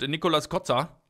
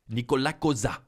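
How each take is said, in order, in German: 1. Der Name wird nicht französisch ausgesprochen. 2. Der Name wird französisch ausgesprochen.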